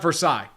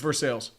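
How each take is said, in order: First: The word ends without an s sound. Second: The word ends with a clear s sound. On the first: The speaker calls it wrong. "It's not Versailles" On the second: The speaker calls it right. "It's pronounced for sales here"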